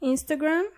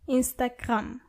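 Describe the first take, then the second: First: The word is pronounced the English way. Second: The word is pronounced the German way. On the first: "Do you hear the difference between the two words?" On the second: "Do you hear the difference between the two words?"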